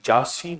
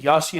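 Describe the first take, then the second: First: The word begins with a J sound. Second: The word begins with a Y sound. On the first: The speaker calls it wrong. "बाबा जी जासीन नहीं है" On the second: The speaker calls it right. "यासीन है"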